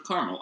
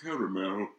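First: The word is pronounced in a plain, casual way. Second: The word is pronounced in a fancier, elaborate way. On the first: It names an everyday treat. "It's not a caramel apple, it's a caramel apple" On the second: It names an upscale dessert topping. "if you're getting, like, a fancy dessert, it's drizzled with caramel"

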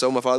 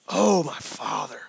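First: It is said quickly and lightly. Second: It is said slowly with strong feeling. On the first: The speaker calls it wrong. "we read this fast" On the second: The speaker calls it right. "he is passionately crying out to God right now"

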